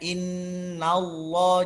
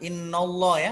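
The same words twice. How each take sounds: First: The nun is light, with an a vowel. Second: The nun is heavy, sounding like no. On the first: The speaker calls it right. "Jadi bacanya innallah" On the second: The speaker calls it wrong. "jangan innallah ya... jangan jadi no"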